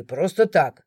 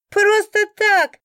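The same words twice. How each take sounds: First: Lower, aggrieved man's protest; a low grumbled protest; complaining man. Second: High, loud, slow mocking echo of просто так; mocking laugh. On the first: A drunk man complaining he was locked up, low aggrieved voice. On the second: A bystander mocking the drunk's excuse, loud laughing echo. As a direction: throw the words back with a guffaw. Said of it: "хохотнул кто-то". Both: A narrator's reading.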